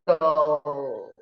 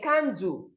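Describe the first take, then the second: First: The final L sound is clearly heard. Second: The final L sound is barely heard. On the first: The speaker calls it right. "the end sound here is low and it needs to be heard" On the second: The speaker calls it wrong. "you are not observing the sound of the letter L"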